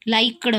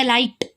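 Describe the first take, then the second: First: लाइक्ड ending in a voiced d sound; mistaken pronunciation. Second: लाइक्ड ending in a crisp t, as "likt"; t-sound ending. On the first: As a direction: say लाइक्ड as "like-duh", with a d at the end. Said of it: "बहुत सारे लोग ऐसे ये बोलते हैं". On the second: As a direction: say लाइक्ड with ट in place of the final d. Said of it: "ट sound है पीछे". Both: Shown as a demonstration.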